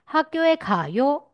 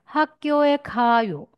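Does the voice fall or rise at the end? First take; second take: rise; fall. First: The pitch rises at the end. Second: The pitch falls at the end. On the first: It asks whether someone is going to school. "你在你的句子的末尾语调为上扬，就是疑问句" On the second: It states that someone is going to school. "直述句"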